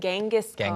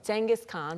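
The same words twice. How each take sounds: First: The name starts with a hard G sound. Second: The name starts with a J sound.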